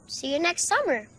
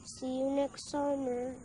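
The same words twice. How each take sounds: First: Said in the usual way. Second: Very soft, subdued farewell; hushed goodbye. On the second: Acted. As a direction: say it back quietly, almost to yourself. Subdued goodbye between children. (mahinang pamamaalam)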